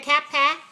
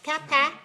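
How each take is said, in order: The two takes are said the same way.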